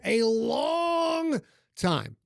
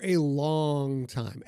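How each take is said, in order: First: LONG stretched out very slowly and held high; drawn-out LONG. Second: Said in the usual way. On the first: Real, not acted. Host stressing years with the league, drawn-out LONG. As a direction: draw LONG right out, pitched up.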